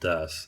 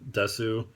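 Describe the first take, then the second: First: The final u sound is silent. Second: The final u sound is pronounced.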